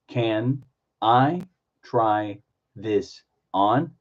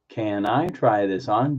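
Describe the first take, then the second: First: Each word is said separately with breaks. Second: The whole phrase is said slowly. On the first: "Do individual words" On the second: "Slow it down"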